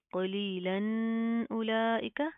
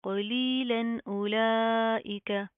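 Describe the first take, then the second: First: कलीलन उलाइका with the final न of कलीलन wrongly held and hummed; wrong nasal hold. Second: कलीलन उलाइका chanted slowly with a plain न and long ली and ला; slow recitation, no nasal hold in कलीलन उलाइका; clear, unhummed noon. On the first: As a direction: linger on the न of कलीलन, then hurry through उलाइका. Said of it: "इसको हम इस तरह नहीं पढ़ेंगे". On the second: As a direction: say the न of कलीलन clearly without humming, stretch उलाइका. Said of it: "simple किस तरह पढ़ा जाएगा". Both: Shown as a demonstration.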